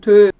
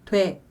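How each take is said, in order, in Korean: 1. 모음이 일정하게 유지돼요. 입술 모양이 그대로예요. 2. 모음이 미끄러져요. 입술 모양이 바뀌거든요. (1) "원래는 오이 되는 그냥 돼 이렇게 발음해야 돼요. 그러니까 단모음이거든요. 입술 모양이 바뀌지가 않아요" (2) "근데 사실 우리 돼 이렇게 발음하죠. 입술 모양이 으에 이렇게 바뀌어요"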